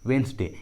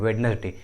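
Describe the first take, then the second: First: The d sound is silent. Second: The d sound is pronounced. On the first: The speaker calls it right. "इसका सही उच्चारण होता है वेंसडे" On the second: The speaker calls it wrong. "बहुत सारे लोग वेडनेसडे कहते हैं, वेडनेसडे विच इज इनकरेक्ट"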